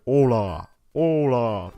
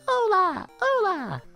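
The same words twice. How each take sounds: First: It is said in a deep voice. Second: It is said in a higher voice.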